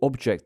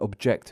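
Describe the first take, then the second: First: The stress is on the first syllable. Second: The stress is on the second syllable. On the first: It is used as a noun. "the noun" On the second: It is used as a verb. "the verb"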